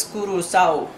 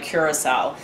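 First: Curacao said as "koo-doo-SOW"; pretty island pronunciation. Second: Curacao said as "KYUR-uh-sow"; tourist mispronunciation. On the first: Vlogger quotes island guys correcting her, Curacao as "koo-doo-sow". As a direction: say Curacao with oo vowels and tapped r. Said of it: "they said it all pretty". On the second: Vlogger recalls the girls' mistake, Curacao pronounced "cure-uh-sow". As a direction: say Curacao with an English "cure" at the start. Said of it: "we pronounced it wrong". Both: Retold or imitated.

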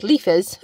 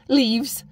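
First: Put-on toddler-style "Leafers" instead of "leaves"; childish leafers. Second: Said in the usual way. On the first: Shown as a demonstration. Copying her four-year-old, says "Leafers" childishly. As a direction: say "Leafers" like a small child, with a touch more force. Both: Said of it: "I sound like my four-year-old".

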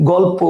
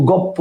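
First: Said in the usual way. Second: গপ্প with doubled p, no l; assimilated pronunciation. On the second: Shown as a demonstration. Teacher listing examples for students, assimilated pronunciation. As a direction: turn the l into p in গপ্প. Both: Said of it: "সব হচ্ছে পরাগত সমীভবনের উদাহরণ".

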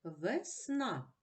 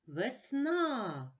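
First: Said in the usual way. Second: "Весна" with the final А raised and drawn out; stress on the А. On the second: Shown as a demonstration. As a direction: stretch the last vowel А of "Весна". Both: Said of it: "Наголошений А".

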